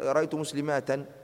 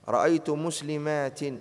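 First: The last word ends with an 'a' vowel. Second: The last word ends with an 'i' vowel. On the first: The speaker calls it wrong. "لا يصح عن جميع العرب" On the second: The speaker calls it right. "ينصب بالكسرة لا ينصب بالفتح"

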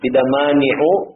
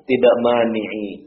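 First: The word ends with the vowel u. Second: The word ends with the vowel i.

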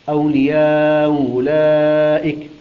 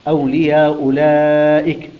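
First: The long vowel is held at medium length. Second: The long vowel is held short, two counts. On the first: "أو بالتوسط" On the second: "هكذا"

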